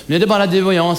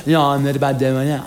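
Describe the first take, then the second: First: A bit challenging. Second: Teasing challenge. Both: Acted. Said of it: "Fast lite utmanande sådär".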